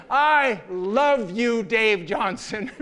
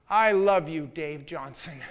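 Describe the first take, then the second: First: Slow, louder, laughing I love you; effusive declaration. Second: Earnest declaration. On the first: Woman declares love to her boss in public, slow and effusive. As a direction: stretch it out, over the top and laughing. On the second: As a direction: say it to his face, meaning it. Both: Retold or imitated. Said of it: "kept on repeating".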